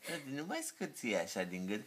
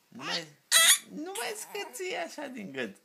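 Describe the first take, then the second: First: Said in the usual way. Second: Father's gentle high coo. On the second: Real, not acted. Father soothes squeaking baby.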